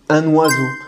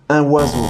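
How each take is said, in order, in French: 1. Le n est lié au mot suivant. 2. Le n n'est pas lié au mot suivant. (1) "On fait bien la liaison entre le U et le N" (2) "On ne va pas dire un oiseau, un oiseau. Non, ça sonne faux, ça sonne bizarre"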